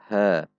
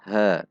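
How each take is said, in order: The two takes are said the same way.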